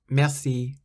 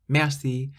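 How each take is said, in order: Both takes have the same delivery.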